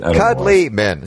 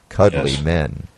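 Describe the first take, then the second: First: It is said in an ordinary speaking voice. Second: It is said in a low, gruff voice.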